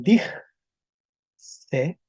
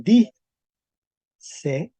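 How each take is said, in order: First: "dig C" como "dij... se", con jota suave antes de la pausa; k vuelta jota. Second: "di C" como "dii... se", con i en lugar de jota; consonante vuelta vocal. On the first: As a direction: termina "dig" en fricativa y separa "C". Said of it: "con P once". ("dig C" dicho "dij-se", en dos golpes) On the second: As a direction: deja "di" en vocal y separa "C". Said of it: "también se va a transformar". ("di C" dicho "di-se", en dos golpes) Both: Shown as a demonstration.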